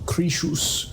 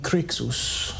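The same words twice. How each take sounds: First: The x is said as a 'sh' sound. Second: The x is said as a 'ks' sound. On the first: "When I see the X, I want to make a sh sound" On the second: "Or it could be"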